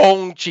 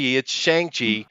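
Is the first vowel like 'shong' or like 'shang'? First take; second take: shong; shang. First: The first vowel sounds like 'shong'. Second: The first vowel sounds like 'shang'. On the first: The speaker calls it wrong. "but it's not Shong" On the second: The speaker calls it right. "We're English speakers. That's how we pronounce shit"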